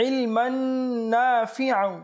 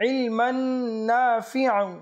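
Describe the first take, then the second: No difference in how they are said.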